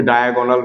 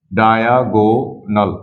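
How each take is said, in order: First: Said in the usual way. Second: diagonal drawn out slowly, syllable by syllable; slow sounding-out. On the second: Shown as a demonstration. Teacher introducing a new term to students, diagonal slowly sounded out. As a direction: stretch each part of diagonal.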